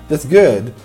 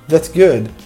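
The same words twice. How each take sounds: First: The words run together like one word. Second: The same.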